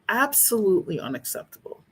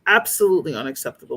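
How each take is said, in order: First: It is said quietly. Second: It is said loudly.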